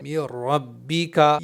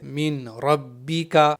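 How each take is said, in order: First: The n is merged with no nasal hum. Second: The n is merged with a nasal hum. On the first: The speaker calls it right. "इसकी सही अदायगी है ... नून बिल्कुल यहाँ पर हम साइलेंट करके पढ़ेंगे।" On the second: The speaker calls it wrong. "कुछ लोग गलती से यहाँ पर गुन्ना कर देते हैं ... इस तरह से पढ़ना गलत है।"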